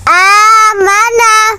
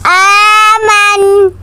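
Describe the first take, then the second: First: The word ends with a short vowel after n. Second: The word ends on the n consonant. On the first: The reading continues into the next word. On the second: The reading stops at this word.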